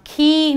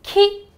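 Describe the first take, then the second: First: खी with the ee held long; wrong long vowel. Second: खी cut short with a quick, high i; short vowel. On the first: Teacher warns against saying खी, long drawn-out ee. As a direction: stretch out the vowel in खी. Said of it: "खी नहीं बोलना". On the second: Teacher models खी for students, short i. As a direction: say खी with a brief, light vowel. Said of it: "वो बिल्कुल हल्की होती है". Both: Shown as a demonstration.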